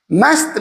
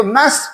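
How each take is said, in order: First: "मस्त" with the final T clearly sounded. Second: "must" said as "mas", final T silent; T dropped in must. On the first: Teacher shows learners the other reading, मस्त with its T sounded. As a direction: say "मस्त" ending on S plus T. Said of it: "मस्त भी पढ़ सकते हैं". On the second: Teacher shows learners one reading of must, final T silent. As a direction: say "must" without sounding its last T. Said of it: "उसको must पढ़ सकते हैं". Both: Shown as a demonstration.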